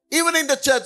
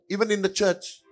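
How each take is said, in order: First: Higher, punched "Even in the church"; emphatic repeat. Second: Said in the usual way. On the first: Shown as a demonstration. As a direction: hit "Even in the church" hard the second time. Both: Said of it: "repeated with emphasis".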